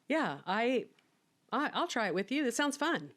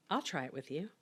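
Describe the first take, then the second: First: Giddy retelling. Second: Said in the usual way. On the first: Retold or imitated. Retelling Mike's offer to try the case, giddy and lightly voiced. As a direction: quote rises much higher, giddy and breathless. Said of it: "And he said". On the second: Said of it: "And Mike Anderson said".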